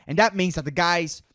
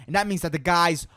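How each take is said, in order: Both takes have the same delivery.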